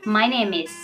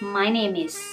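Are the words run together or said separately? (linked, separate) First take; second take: linked; linked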